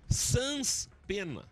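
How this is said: It is said in a gaúcho missionary accent.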